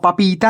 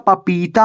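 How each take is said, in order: First: "पपीता" broken up as pa-paa-peeta; wrong pronunciation. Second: "पपीता" as one slow, joined word, pa-pee-taa; correct pronunciation. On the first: Teacher showing students the misreading to avoid, wrong pronunciation. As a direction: stumble on the front of "पपीता", splitting off the pa. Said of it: "नहीं होता". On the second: Teacher giving students the real word, correct pronunciation. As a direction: draw out "पपीता" slowly with a long pee. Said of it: "होता है". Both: Shown as a demonstration.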